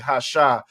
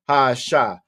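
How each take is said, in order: First: The article and noun run together as one word. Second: The article and noun are said as separate parts. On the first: The speaker calls it wrong. "You might blend it all together and just say hasha" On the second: The speaker calls it right. "with the separator on"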